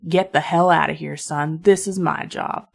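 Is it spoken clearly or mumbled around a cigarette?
clearly. It is spoken in a plain, clear voice.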